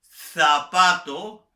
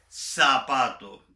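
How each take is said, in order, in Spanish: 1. La z se pronuncia como la th del inglés. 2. La z se pronuncia como una s. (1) "Yo no digo" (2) "lo normal para mí es decir"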